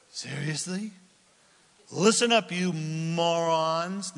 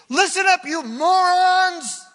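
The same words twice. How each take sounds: First: A touch of weary disbelief, drawn out slowly; exasperated. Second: Much higher, much louder, with a slow, drawn-out morons; furious shout. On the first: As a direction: sigh it at people you're sick of. Moses' exasperated version. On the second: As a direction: bellow it at the whole crowd. Moses yelling at the crowd. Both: Acted.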